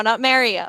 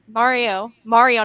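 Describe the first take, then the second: First: Mario said as "MARE-ee-oh"; Mario rhyming its start with "air"; mistaken pronunciation. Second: Mario with a broad AH, "MAH-rio"; corrected pronunciation. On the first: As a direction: flatten Mario's first vowel to "mare". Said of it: "'cause I said Mario". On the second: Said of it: "'cause I said Mario, but it's Mario". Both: Shown as a demonstration.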